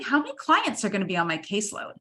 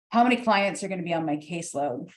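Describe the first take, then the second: First: It is said in a warm, friendly tone. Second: It is said in a cold, guarded tone. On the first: The candidate seems open and engaged. The speaker calls it right. "oh, that's great" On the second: The candidate seems closed off. The speaker calls it wrong. "my arms are crossed and I'm sitting back"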